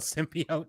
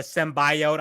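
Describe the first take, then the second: First: "symbiote" said sim-BEE-oat; the later "symbiote", sim-bee-oat. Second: "symbiote" said sem-BYE-oat; the trailer's "symbiote", sim-BYE-oat. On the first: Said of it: "they didn't call it, they called it". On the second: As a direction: quote "symbiote" with a long eye in it. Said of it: "annoyed at pronunciations". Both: Retold or imitated.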